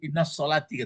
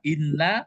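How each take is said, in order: First: An s sound joins inna to solati. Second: No s sound comes between inna and solati. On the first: The speaker calls it wrong. "sering dibaca orang innas solati gitu" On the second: The speaker calls it right. "yang betulnya adalah inna"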